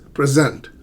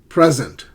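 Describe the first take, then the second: First: The stress is on the second syllable. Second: The stress is on the first syllable. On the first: It is a verb. "let me present to you" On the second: It is a noun. "I need to buy a present for my uncle"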